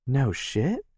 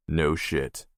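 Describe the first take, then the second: First: Higher, rising disbelief; surprised. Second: Said in the usual way. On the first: Acted. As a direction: ask it wide-eyed. Sister surprised by news.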